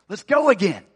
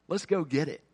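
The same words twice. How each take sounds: First: Louder, rousing call to go again; a preacher's punchy rallying shout; rallying cry. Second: Said in the usual way. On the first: Acted. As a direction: fire them up to get moving. Rallying the congregation.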